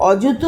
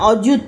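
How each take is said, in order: First: The first vowel is a rounded 'o' sound. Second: The first vowel is a rounded 'o' sound.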